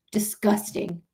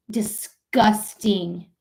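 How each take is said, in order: First: Softly muttered disgust; low, under the breath; quiet disgust. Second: "Disgusting" drawn out very slowly. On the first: Streamer condemning treatment of immigrants, quiet disgust. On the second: Streamer condemning treatment of immigrants, slow emphatic disgust. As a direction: stretch each syllable of "Disgusting". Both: Real, not acted.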